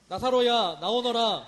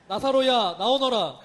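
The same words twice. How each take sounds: First: It is said louder. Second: It is said louder still, near shouting.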